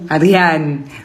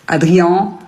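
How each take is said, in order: First: The ending has a clearly pronounced n. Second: The ending is a nasal vowel without n. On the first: The speaker calls it right. "qu'on dise Anne" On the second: The speaker calls it wrong.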